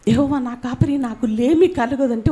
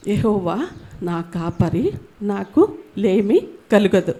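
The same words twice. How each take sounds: First: Said in the usual way. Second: Slow, low, reverent reading of the verse; slow scripture recitation. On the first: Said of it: "verse repeated in passing". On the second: Shown as a demonstration. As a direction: let each word of the psalm settle. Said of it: "మొదటి వచనము". (నెమ్మదిగా భక్తితో వచనం చదవడం)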